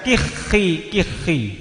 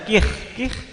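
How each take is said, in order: First: Each word ends with a short i vowel. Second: Each word ends on the consonant with no vowel. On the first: "dalam keadaan kasroh" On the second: "sakinatan dalam keadaan mati"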